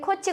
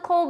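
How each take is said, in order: First: The name ends with a 'chi' sound. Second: The name ends with an 'oh' sound. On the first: This is the older way taught in school. "옛날에 초등학교 때는 코치" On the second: This is the current English-style pronunciation. "지금 영어 발음하면 코우죠"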